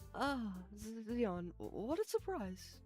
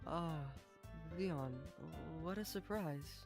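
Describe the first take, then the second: First: It is a lighter woman's voice. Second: It is a heavier, motherly woman's voice.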